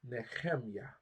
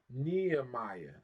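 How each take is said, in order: First: The middle h is a rough throaty sound. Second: The middle h is a soft breathy sound. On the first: This is the Hebrew way of saying the name. "That guttural hate" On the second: This is the English way of saying the name. "That's how we said in English"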